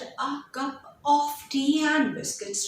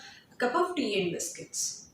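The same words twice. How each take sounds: First: The small words are said fully, without weakening. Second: The small words are weakened to short, reduced sounds. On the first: The speaker calls it wrong. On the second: The speaker calls it right. "rather it will become"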